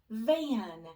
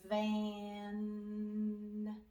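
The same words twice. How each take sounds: First: The word is said quickly. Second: The word is stretched out slowly. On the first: The sounds are blended into the whole word. "We're going to say it fast" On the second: Every sound in the word can be heard. "Let's blend it slowly so we can hear all the sounds"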